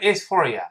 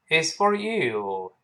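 First: 'You' is unstressed with a weakened vowel. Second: 'You' is stressed with a full vowel. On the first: The speaker calls it wrong. "不能it's for you，那不可能了" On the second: The speaker calls it right. "因为you 有重读嘛"

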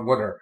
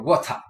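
First: It is said in an American accent. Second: It is said in a British accent.

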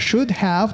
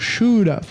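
First: Both words are said fully and distinctly. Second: The words are weakened and run together.

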